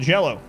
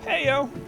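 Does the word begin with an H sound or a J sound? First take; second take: J sound; H sound. First: It begins with J and has an L sound. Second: It begins with H and has a Y sound. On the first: "in English, if you spell Jello, two L's... you just pronounce it Jello" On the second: "the J would be like an H, the double L would be like a Y"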